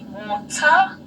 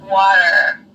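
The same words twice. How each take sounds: First: The middle T is a crisp, clear T. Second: The middle T is a soft D-like tap. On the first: "we pronounce the T's here" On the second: "in the American accent ... you would say water"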